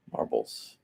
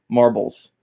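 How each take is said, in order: First: Breathy whispered echo of the name Marbles; whispered repeat. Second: Said in the usual way. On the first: Real, not acted. Teacher whispering a viewer's name while recalling it. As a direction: hush it under your breath as you place it.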